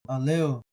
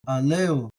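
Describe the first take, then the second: The two takes are said the same way.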